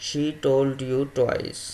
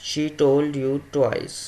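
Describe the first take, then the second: Both takes have the same delivery.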